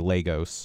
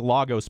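First: The first vowel is a long A sound. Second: The first vowel is a short A sound. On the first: "I'm actually going to go with that long A" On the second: "I want to say Lagos"

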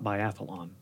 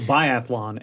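First: The word has an extra vowel, four syllables. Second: The word has three syllables, no extra vowel. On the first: The speaker calls it wrong. "and not biathlon" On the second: The speaker calls it right. "So biathlon"

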